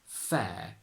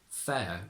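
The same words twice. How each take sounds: First: A single long e vowel is held steady. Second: The e vowel glides into a schwa. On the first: It is the young, current form. "we just extend the e a little bit more" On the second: It is the older form. "with a e and a schwa"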